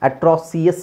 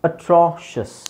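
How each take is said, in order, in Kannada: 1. ಕೊನೆಯ ಭಾಗ ಎರಡು ಸಿಲೆಬಲ್, see-us. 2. ಕೊನೆಯ ಭಾಗ ಒಂದೇ ಸಿಲೆಬಲ್, shus. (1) "ಅಟ್ರಾಸಿಯಸ್ ಆಗಲ್ಲ" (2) "ನಾವು ಶಸ್"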